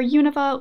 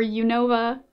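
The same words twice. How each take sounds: First: Unova with the first syllable stressed; alternative pronunciation. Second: Unova with stress on NO; alternative pronunciation. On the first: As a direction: say Unova front-stressed, YOO-nuh-vuh. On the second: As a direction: say Unova as yoo-NOH-vuh. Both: Shown as a demonstration. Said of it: "I don't know how it's pronounced".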